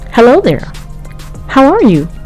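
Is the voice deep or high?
high. It is said in a higher voice.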